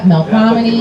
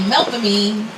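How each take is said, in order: First: It uses the standard pronunciation of the word. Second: It uses the local New Orleans pronunciation. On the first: "we don't say it like that" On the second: "not in New Orleans, that'd be Melpomene"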